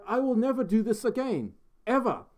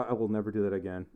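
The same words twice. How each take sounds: First: High-pitched fake Australian accent; bad Aussie accent. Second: Said in the usual way. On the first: Shown as a demonstration. Streamer regretting the request, still in bad Aussie accent. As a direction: swear it off in a hammed-up Aussie voice. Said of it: "your best, best Aussie accent". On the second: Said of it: "worst Australian accent ever".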